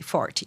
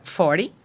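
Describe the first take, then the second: First: "forty" with the t crisply pronounced; "forty" with a careful, distinct t; clear t. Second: "forty" with the t tapped like a quick d, American style; "forty" with a relaxed tapped t; flapped t. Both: Shown as a demonstration. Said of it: "a pronúncia do T ali".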